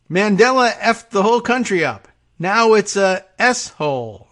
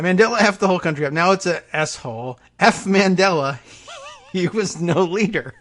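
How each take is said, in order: First: Louder, higher mock outburst; mock Trump rant. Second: Quick mock Trump. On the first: Host parodying Trump's words about Mandela, mock loud rant. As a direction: bellow it like a mock tirade. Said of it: "I guess he said". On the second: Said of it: "repeat of quote, faster".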